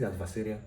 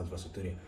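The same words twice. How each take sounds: First: "adversarial" said ad-ver-SAIR-ee-al; standard pronunciation. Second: "adversarial" said ad-ver-sa-TOR-ee-al; alternative pronunciation. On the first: Lecturer checks the word aloud, "adversarial" as ad-ver-sair-ee-al. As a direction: keep "adversarial" free of a "tor" syllable. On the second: Lecturer checks the word aloud, "adversarial" as ad-ver-sa-tor-ee-al. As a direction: slip a "tor" into "adversarial" before the ending. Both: Shown as a demonstration. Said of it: "is it adversarial or adversarial?".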